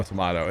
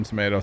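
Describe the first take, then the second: First: "tomato" with a broad AH, tuh-MAH-toh; British-style pronunciation. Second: "tomato" with a long AY, tuh-MAY-toh; "tomato" with MAY in the middle; American pronunciation. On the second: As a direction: say "tomato" to rhyme with potato. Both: Shown as a demonstration. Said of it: "my accent compared to where Goatee's at".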